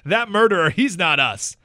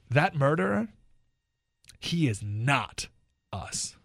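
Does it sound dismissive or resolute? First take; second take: dismissive; resolute. First: It sounds dismissive, brushing off blame. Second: It sounds resolute and committed to responsibility.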